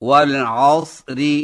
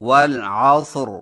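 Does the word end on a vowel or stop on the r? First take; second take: vowel; stop. First: The word ends with a vowel after the r. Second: The word stops on a silent r. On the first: The reading continues without a stop. "وصلاً" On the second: The reading pauses at this word. "وقفاً"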